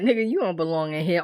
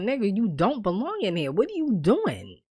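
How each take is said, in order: First: Mock-teasing, tossed off quickly; joking. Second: Earnest, emphatic pleading, softer voice; serious disbelief. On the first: Visitor ribbing a jailed friend, joking. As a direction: toss it off as a light jibe. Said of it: "Almost like a joke". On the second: Retold or imitated. Visitor seeing friend in jail now, earnestly baffled. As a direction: imitate someone seriously questioning a friend. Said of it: "the same line two different ways".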